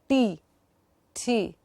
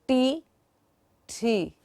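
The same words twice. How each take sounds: Both takes have the same delivery.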